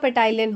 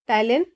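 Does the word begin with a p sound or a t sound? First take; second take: p sound; t sound. First: The word begins with a sounded p. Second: The word begins with a t sound.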